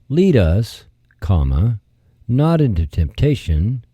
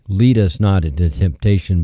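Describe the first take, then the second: First: There is a break after 'lead us'. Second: It runs on without a break after 'lead us'. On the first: It asks to be led, away from temptation. The speaker calls it right. "The phrasing should be" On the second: It asks not to be led into temptation. The speaker calls it wrong. "the way this should read is not"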